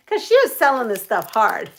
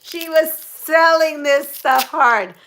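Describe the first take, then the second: First: Said in the usual way. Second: SELLING drawn out, loud and high; slow it down and lean loudly on "selling"; emphatic repeat. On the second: Real, not acted. Telling viewers of a hard sales pitch, emphatic on "selling".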